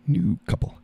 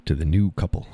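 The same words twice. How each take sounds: First: New couple in a squeaky high voice; a silly high-pitched echo; high squeak. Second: Said in the usual way. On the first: Pretend. Echoes line in squeaky voice.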